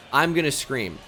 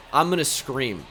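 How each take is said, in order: Both takes have the same delivery.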